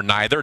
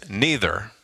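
First: "neither" said with a long I, NYE-ther; "neither" starting like "nigh"; NYE-ther pronunciation. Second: "neither" said with a long EE, NEE-ther; "neither" starting like "knee"; NEE-ther pronunciation. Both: Shown as a demonstration. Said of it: "depending on how you say it".

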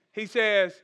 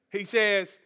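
No difference in how they are said.

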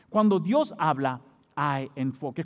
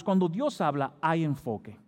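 First: Slow, weighty "Cuando Dios habla", then drop on "hay enfoque"; emphatic repeat. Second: Said in the usual way. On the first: Real, not acted. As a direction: repeat it slowly, letting "Dios habla" sink in. Repeats key point slowly for emphasis. (repetición lenta y enfática, con peso en "Dios habla")

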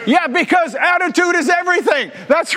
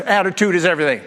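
First: Emphatic shout. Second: Said in the usual way. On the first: Real, not acted. Pastor driving home his catchphrase, shouting. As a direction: belt it out to the whole church. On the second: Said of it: "You know that's true".

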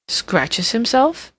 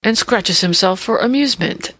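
First: Slow, rising incredulous question; drawn-out puzzled query; puzzled echo. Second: Said in the usual way. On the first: A narrator's reading. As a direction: repeat it slowly, baffled. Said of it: "inquired the Duke".

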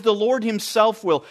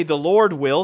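First: "himself" weighted, the key word; stress on himself. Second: Said in the usual way. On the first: Shown as a demonstration. Preacher contrasting "The Lord himself will" with the plain version, stressed. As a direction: push on "himself" to make the point. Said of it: "Paul is making a very emphatic statement". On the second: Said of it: "he doesn't just say".

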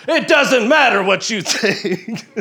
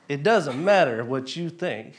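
First: Booming high wrestler yell, slow and laughing; The Rock trash talk. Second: Said in the usual way. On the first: Retold or imitated. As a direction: yell it like a wrestler calling someone out. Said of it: "gonna yell a little".

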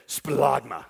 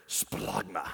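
First: Splagma said low with relish; Greek word splagma. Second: Splagma said low and deep, from the gut; Greek word splagma. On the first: Preacher inviting the crowd to say splagma, low. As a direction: savor splagma slowly from the gut. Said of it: "It feels good when you say it". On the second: Preacher savoring the Greek word splagma, deep and low. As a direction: let splagma rumble up low from the belly. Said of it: "another great word". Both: Shown as a demonstration.

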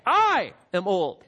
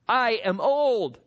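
First: "I" punched out loud, then dropping away; emphatic I. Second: Said in the usual way. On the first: Shown as a demonstration. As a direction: hit the "I" hard and slowly. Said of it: "he says it in the emphatic".

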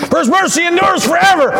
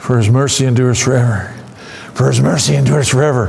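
First: High, fervent refrain; exultant cry, pitched high; built-up emphasis. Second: Said in the usual way. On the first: Shown as a demonstration. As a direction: lift it way up in a crescendo of praise. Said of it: "supposed to build and build and build". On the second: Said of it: "Could you imagine we're gonna go".

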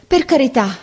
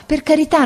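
First: High begging, first plea; pleading. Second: Even higher, louder second plea; the plea rises into a cry; pleading. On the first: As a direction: plead once, urgently. («per carità» supplicato, acuto) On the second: («per carità» ripetuto ancora più acuto e forte) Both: A narrator's reading. Boy begs, repeating phrase.

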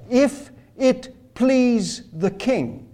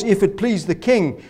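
First: Slow, higher, softer and oily; seductive flattery. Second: Said in the usual way. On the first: Retold or imitated. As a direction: coax the king sweetly, drawn out. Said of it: "Haman is seductive. Haman is persuasive. That's how he talks". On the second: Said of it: "That's how he talks".

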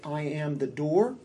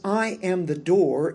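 First: Said in the usual way. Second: I declared louder with a lift in pitch; emphatic declaration. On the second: Acted. Preacher proclaims Jesus' words to congregation, emphatic. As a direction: proclaim "I am the door" with I ringing out.

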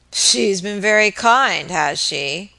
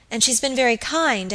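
First: Slow, mocking drunken mutter; drunken sneer. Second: Said in the usual way. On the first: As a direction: sneer it back at her, slowly. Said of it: "muttered Mister Marks with a drunken laugh".

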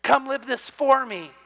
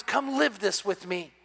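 First: Higher, slow, pressing plea; the same call raised, more insistent; urgent invitation. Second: Soft, slow, inviting call; tender divine invitation, unhurried; gentle invitation. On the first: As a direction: lean on the word for. God's invitation, pressed harder. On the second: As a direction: coax them in quietly. God's invitation, gently voiced. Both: Retold or imitated.

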